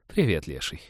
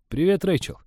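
First: Low, dutiful waitress greeting; routine polite greeting. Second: Bright, eager greeting; shy young man greeting. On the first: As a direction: say it with a practised smile. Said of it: "дежурно улыбнулась официантка". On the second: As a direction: greet her a little too eagerly. Greeting the waitress he likes. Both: Acted.

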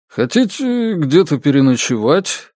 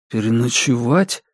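First: «переночевать» lifted into a rising question; full question, tune climbing on «переночевать»; offer as question. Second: Subdued «Переночевать» with a rising end; echoed question. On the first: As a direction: ask it openly, raising «переночевать». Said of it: "спросил Норм". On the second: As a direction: repeat «Переночевать» as a puzzled echo, lifting the end. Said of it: "повторил Бремен". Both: A narrator's reading.

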